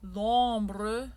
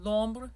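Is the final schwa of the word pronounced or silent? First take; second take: pronounced; silent. First: The final schwa is pronounced. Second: The final schwa is silent. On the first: This is the sung French form. "in sung French" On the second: This is the spoken French form. "in speaking"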